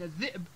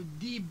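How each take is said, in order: First: Said in the usual way. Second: الديب as ed-diib, d and long vowel; dropped hamza. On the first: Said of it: "بدل من الذئب". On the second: Shown as a demonstration. Teacher giving examples, الديب as diib. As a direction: say الديب with no glottal stop. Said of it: "تحال إلى حرف علة".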